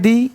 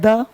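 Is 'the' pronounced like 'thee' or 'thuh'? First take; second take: thee; thuh. First: The vowel is a long 'ee' sound. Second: The vowel is a short reduced 'uh' sound. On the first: The next word begins with a vowel sound. "Vowel sound में आप द लगा दो, कहते हैं दी" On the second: The next word begins with a consonant sound. "Consonant में द लगा दो, कहते हैं द"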